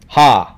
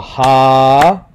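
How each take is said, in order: First: The vowel is short, held for one beat. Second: The vowel is long, held for two beats. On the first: "without a kahako gets one clap" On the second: "if there's a kahako, it gets two claps"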